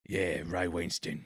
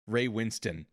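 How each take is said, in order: First: Put-on slow, lower Cockney accent; Cockney impression. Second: Said in the usual way. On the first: Imitating the actor from The Departed, low slow Cockney. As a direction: stretch the vowels into thick Cockney. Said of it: "I think it was more like".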